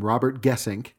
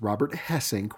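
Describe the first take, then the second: First: The surname begins with a hard G sound. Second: The surname begins with an H sound. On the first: This is how people used to say the name. The speaker calls it wrong. "We were at the time calling him" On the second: This is how the name is actually said. The speaker calls it right. "It's Robert Hesink, we've now learned"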